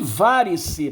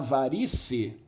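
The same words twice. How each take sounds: First: The stress is on the first syllable. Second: The stress is on the second syllable. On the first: This is the older form of the word. "Era varice, era uma palavra proparoxítona" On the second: This is the later form of the word. "ela acabou se transformando em paroxítona"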